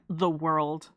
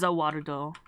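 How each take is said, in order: First: It is said plainly in the normal accent. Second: It is said in a put-on character accent. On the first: "I can't just say, like, the world" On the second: "I feel like I have to say it like that. I have to say it like he says"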